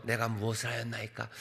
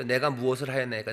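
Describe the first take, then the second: First: Soft, low, composed reading; calm, dignified. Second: Put-on mildly defiant kid-brother reading; talking back. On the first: David answering his brother, calm and dignified. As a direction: say it serenely, too mannerly to argue. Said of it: "뭐 그렇게 평온하게". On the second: Youngest answering his older brother, talking back. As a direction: put some protest into the formal words. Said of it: "막내들이 형한테 좀 대듭니다". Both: Shown as a demonstration.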